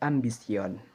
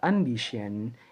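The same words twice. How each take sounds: First: It is said with a Spanish pronunciation. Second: It is said with an English pronunciation. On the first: This is how it is said in Spain. "akan tetapi ambition" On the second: This is not how it is said in Spain. "di Spanyol, kata ambition itu tidak diucapkan demikian"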